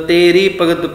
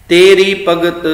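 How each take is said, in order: The two takes are said the same way.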